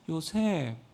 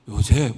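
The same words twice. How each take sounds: First: The name is said in a sweet, alluring voice. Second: The name is said in a plain, ordinary voice. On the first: "아주 예쁜 목소리로" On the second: "그냥 와가지고"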